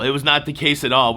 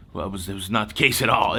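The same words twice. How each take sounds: First: "not" punched, the whole line louder; stress on not. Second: Said in the usual way. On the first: Shown as a demonstration. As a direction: hit the word "not" hard. Repeats the phrase for emphasis.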